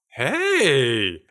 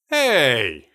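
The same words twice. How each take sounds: First: It sounds simply surprised. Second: It sounds surprised and indignant.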